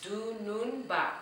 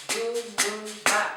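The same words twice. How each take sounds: First: Said in the usual way. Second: "Dunun ba" slow and loud, three separate beats; syllables beaten out. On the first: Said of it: "let's try that again". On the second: Shown as a demonstration. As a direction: chant "Dunun ba" beat by beat. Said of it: "Let's go".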